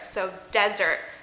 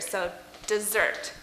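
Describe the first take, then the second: First: The stress is on the first syllable. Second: The stress is on the second syllable. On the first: A very dry area of land. "we want to put the stress on the S here" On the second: A sweet treat after a meal. "we want to put the stress on the second S here"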